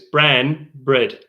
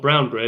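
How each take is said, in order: First: The first word has a flat 'a' vowel. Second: The first word has an 'ow' vowel. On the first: The speaker calls it right. "it's bran bread" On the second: The speaker calls it wrong. "it's not brown bread"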